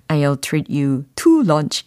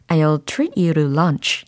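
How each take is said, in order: First: The word 'to' is pronounced strongly. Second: The word 'to' is reduced and weak. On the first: The speaker calls it wrong. "너무 강하게 발음하실 필요는 없어요. 이렇게 하시지 마시고" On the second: The speaker calls it right. "이렇게 좀 약화를 시키셔가지고 발음하시면 되는 부분입니다"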